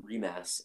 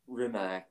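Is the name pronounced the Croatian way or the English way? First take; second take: Croatian; English. First: The name is said with a Croatian pronunciation. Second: The name is said with an English pronunciation.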